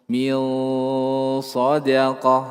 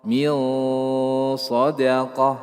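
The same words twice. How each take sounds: The two takes are said the same way.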